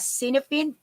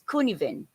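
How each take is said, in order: First: It is said as an English spelling reading. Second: It is said with the Welsh pronunciation. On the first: The speaker calls it wrong. "you can read it as" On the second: The speaker calls it right. "it is really pronounced as"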